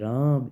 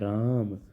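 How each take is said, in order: First: The vowel is stretched out for a long time. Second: The vowel is held somewhat longer than normal. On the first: "फिर और लंबा ले गए" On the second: "फिर आप थोड़ा उसमें और ठहर गए"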